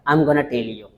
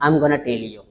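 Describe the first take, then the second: First: The words are contracted and blended together. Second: The same.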